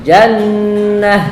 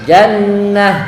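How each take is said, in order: No difference in how they are said.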